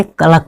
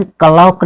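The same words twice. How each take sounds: First: क्लॉक said as "ka-lak"; short "a" in क्लॉक, no "au"; correct pronunciation. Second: क्लॉक said as "ka-lauk"; wrong pronunciation. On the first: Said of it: "क्या पढ़ेंगे?". (क्लॉक को "क-लक" बोलें) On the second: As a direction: stretch an "ao" vowel in क्लॉक. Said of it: "हम क्लॉक नहीं पढ़ेंगे". (क्लॉक को "कलाओक" जैसा बोलें) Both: Shown as a demonstration.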